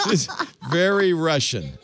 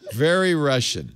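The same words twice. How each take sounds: First: Laughing. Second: Said in the usual way. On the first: Real, not acted. Laughing at Russian dash cam.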